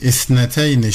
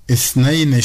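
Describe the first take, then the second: First: Isneteyni, with an added "te": is-ne-TEY-ni; feminine form. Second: Isneyni, said "is-NEY-ni" without a "te"; masculine form. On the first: Teacher showing learners which form to use, feminine form. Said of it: "şeklinde müennes olarak kullanmalıyım". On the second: Teacher showing learners the form not to use, masculine form. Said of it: "müzekker olarak değil". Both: Shown as a demonstration.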